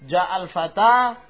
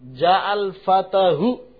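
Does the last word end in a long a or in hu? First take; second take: long a; hu. First: The last word ends in a long a. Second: The last word ends with an added hu. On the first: The speaker calls it right. "tetap ja'al fata" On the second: The speaker calls it wrong. "Ja'al fatahu enggak bisa"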